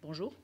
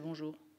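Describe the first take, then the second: First: It is said in a plain, neutral way. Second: It is said in a sulky, grumpy way.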